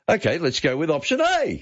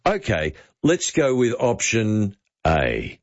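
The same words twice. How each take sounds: First: The whole line pitched much higher; "let's go with option A" said way up high; upward inflection. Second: Falling tune at the end, slow; downward inflection. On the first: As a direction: push the entire line up high, literally. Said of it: "Now go upward inflection at the end". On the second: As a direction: let "A" drop down with certainty. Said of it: "I want you to do downward inflection at the end". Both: Shown as a demonstration.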